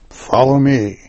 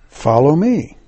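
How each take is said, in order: First: It is said as a firm command. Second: It is said as a gentle invitation.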